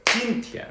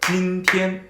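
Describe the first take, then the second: First: 今天 with the first syllable stressed and high; 今天 with English-style stress; English rhythm. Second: 今天 with both syllables level, same strength and length; even first-tone 今天, no stress; steady two-beat 今天; Chinese rhythm. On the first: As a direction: punch the first beat of 今天 like English. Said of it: "in the English rhythm". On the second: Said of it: "The Chinese one". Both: Shown as a demonstration.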